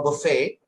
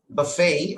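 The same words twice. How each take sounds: First: "buffet" as BUH-fay, the British way; British pronunciation. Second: "buffet" as buh-FAY, long final A; American pronunciation. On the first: Teacher giving both options in the idiom, British pronunciation. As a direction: say "buffet" as a Briton would. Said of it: "in British English, it is buffet". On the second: Teacher giving both options in the idiom, American pronunciation. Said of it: "in American English, it will be buffet". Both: Shown as a demonstration.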